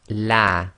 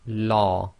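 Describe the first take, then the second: First: The l is thin and light, mouth open. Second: The l is thick and heavy, mouth full. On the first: A kasra sound comes before the name. "pronounce the lam of Allah in a light fashion, that is tarqiq. So that's light, empty mouth" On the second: A fatha or dhamma sound comes before the name. "pronounced in a heavy fashion, that is tafkhim, or full mouth"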